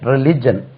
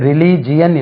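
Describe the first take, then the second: First: The ending is one short syllable: 'jun'. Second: The ending has an extra 'ee' syllable: 'jee-un'. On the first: The speaker calls it right. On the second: The speaker calls it wrong. "இது ரிலிஜியன் இல்லை"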